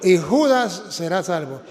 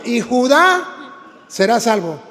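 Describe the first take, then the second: First: "Judas" with the stress on the first syllable and a hissed S; wrong reading Judas. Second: "Judá" with the stress on the final A, read slowly; correct reading Judá. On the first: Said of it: "Y él leyó". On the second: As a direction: stretch it out: "Judá", accent on the last syllable. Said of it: "tiene acento en la A". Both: Shown as a demonstration.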